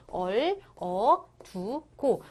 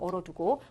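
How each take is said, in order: First: 얼, 어, 두, 고 with a pause after each; syllable-by-syllable reading. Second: Said in the usual way. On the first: Shown as a demonstration. Teacher repeats the reading for students, 얼, 어, 두, 고 separated. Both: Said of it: "이렇게 읽으시면 되는 거야".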